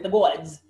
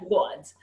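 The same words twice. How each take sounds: First: It is said in a put-on New York accent. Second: It is said in the speaker's ordinary accent.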